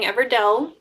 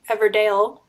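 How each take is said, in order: First: The last syllable rhymes with 'sell'. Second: The last syllable rhymes with 'sale'. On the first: The speaker calls it right. "the right way" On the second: The speaker calls it wrong. "I used to say Everdale"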